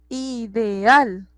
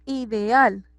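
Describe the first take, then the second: First: "ideal" drawn out, weight on final al; stress on last syllable. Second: Said in the usual way. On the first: Shown as a demonstration. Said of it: "en la última sílaba". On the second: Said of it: "tiene el acento".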